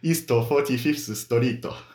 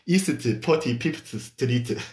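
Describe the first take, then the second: First: It is said with a Japanese accent. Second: It is said with a Korean accent.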